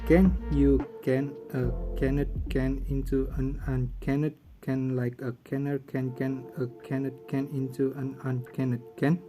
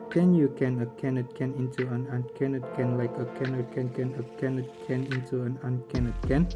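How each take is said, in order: First: It is said at a slow pace. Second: It is said at a normal pace.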